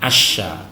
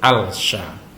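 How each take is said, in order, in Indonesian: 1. Huruf 'l' menyatu menjadi bunyi 'sh' yang ganda. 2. Huruf 'l' dibaca jelas sebelum 'sh'. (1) "alnya dimasukkan ke dalam huruf shin" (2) "tidak boleh"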